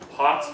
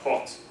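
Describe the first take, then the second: First: It is said with an American vowel. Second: It is said with a darker British vowel.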